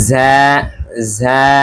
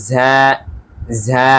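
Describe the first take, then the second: No difference in how they are said.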